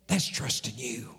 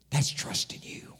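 First: Said in the usual way. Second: Hushed, breathy-free whisper to God; whispered prayer. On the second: Acted. Pastor whispering his trust to God.

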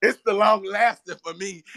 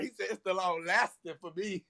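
First: Loud laugh-filled exclamation. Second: Said in the usual way. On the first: Real, not acted. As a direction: burst out laughing on it.

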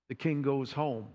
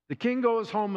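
First: Said in the usual way. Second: "The king goes home" said higher, stress on king; emphatic retelling. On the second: Shown as a demonstration. Preacher repeats "The king goes home" for emphasis.

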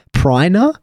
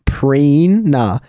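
First: "Prina?" said with a long I as "Pry-na", rising; wrong take, "Prina" as "Pry-na" with a questioning rise; mispronounced. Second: Said in the usual way. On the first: Shown as a demonstration. Mocking how people botch her friend's name, "Pry-na". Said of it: "that doesn't sound". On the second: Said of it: "how do you actually mispronounce that".

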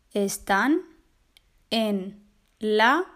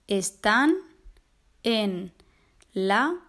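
The two takes are said the same way.

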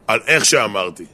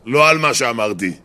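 First: איך picked out with extra weight; stress on איך. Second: Contrastive weight on מה, what; stress on מה. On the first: Husband's grudging apology to wife, stressing איך. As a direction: lean on איך, how, then fall away. Apology contrasts how against what. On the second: Husband's grudging apology to wife, stressing מה. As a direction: set מה apart as the thing not regretted. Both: Acted.

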